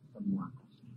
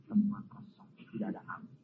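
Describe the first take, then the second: First: Said in the usual way. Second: Hushed, breathy whisper of "Semua kosong"; the preacher lets the congregation lean in, whispering. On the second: Acted.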